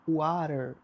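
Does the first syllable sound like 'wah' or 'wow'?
wah. The first syllable sounds like 'wah' with soft t. This is how it was learned in class. "eu aprendi a falar water"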